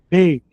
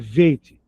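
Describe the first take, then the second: First: It starts with a hard B sound. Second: It starts with a soft V sound. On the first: "o som duro, né? O som mais forte. Beit é o B de bola" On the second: "Tirou o ponto de dentro, ficou veit. É o V como viola"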